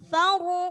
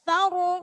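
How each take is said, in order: No difference in how they are said.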